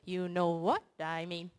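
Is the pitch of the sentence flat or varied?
flat. The pitch stays flat and monotone. "And synthesizer"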